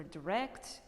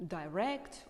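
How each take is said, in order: First: "direct" with a reduced first vowel; slow "direct" with a short I; "direct" as "duh-rect". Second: "direct" opening with "die"; slow "direct" with a long I; "direct" as "die-rect". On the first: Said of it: "in the both ways". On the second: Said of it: "in Britain you can also hear". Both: Shown as a demonstration.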